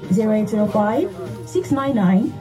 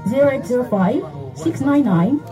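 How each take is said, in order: Both takes have the same delivery.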